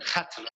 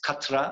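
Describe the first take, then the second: First: It begins with a throaty kh sound. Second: It begins with a plain k sound. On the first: This is the original Arabic form. The speaker calls it right. "pronounced Khatra" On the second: Some European speakers say it this way. The speaker calls it wrong. "They pronounce it Katra or something like that"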